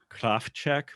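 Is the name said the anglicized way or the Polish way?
Polish. The name is said with a Polish pronunciation. "If you have a Polish accent, ... It actually is pronounced more along the lines of"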